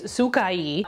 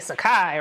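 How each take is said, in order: First: The name is pronounced the Japanese way. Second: The name is pronounced a New York way. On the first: "if you go by the Japanese pronunciation, which I looked up" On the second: "we mad New York over here, so I'm gonna say"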